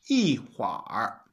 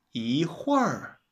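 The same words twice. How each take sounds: First: Everyday 一会儿, ending on a third tone; real-life third tone. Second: 一会儿 with 会儿 in falling fourth tone; dictionary pronunciation. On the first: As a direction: say 一会儿 slowly, dipping on 会儿. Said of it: "the third tone". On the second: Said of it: "in the dictionary, you would pronounce it". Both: Shown as a demonstration.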